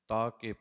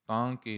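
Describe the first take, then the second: First: The first vowel is oral, not nasal. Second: The first vowel is nasalized. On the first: The speaker calls it right. "ਤਾ ਕੇ ਪੜਾਂਗੇ ਇਹਨੂੰ ਆਪਾਂ" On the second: The speaker calls it wrong. "ਤਾਂ ਕੇ ਨਹੀਂ ਪੜਾਂਗੇ"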